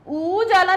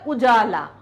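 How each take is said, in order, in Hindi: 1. पहला स्वर दीर्घ उ है। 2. पहला स्वर ह्रस्व उ है। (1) "उजाला नहीं होता है" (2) "बड़ा ऊ नहीं निकलता है"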